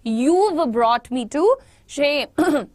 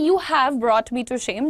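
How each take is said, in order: First: 'You have' is contracted to one syllable. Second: 'You have' is said as two full words. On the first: "यूव ऐसे करके" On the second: "यहां लिखा है"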